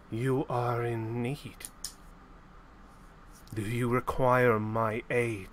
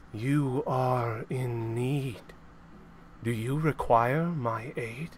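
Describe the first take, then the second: First: Slow, low voice from the darkness; lightly voiced, like an old mentor calling; mysterious voice. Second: Mysterious voice. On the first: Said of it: "you hear a voice come out of the darkness". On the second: Acted. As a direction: draw it out like a spirit in the dark. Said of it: "You hear a voice, and it says".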